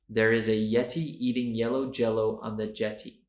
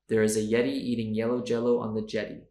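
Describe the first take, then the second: First: It is said at a normal speed. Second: It is said at a fast speed.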